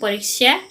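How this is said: It is said with a Hindi pronunciation. "हिंदी उच्चारण"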